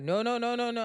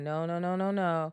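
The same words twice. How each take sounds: First: It is said mockingly, exaggerating Uba's accent. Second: It is said sincerely, as Uba said it.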